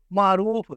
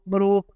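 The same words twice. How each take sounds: First: معروف with the ain held, maa-roof; clear ain. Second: معروف squashed to ma-roof; short first syllable in معروف, no ain; swallowed ain. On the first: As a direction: give معروف a long, clear first syllable. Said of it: "عین کو واضح کر کے پڑھیں". (معروف میں عین واضح) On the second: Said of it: "عین کو کھا جاتے ہیں". (معروف میں عین کھا کر) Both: Shown as a demonstration.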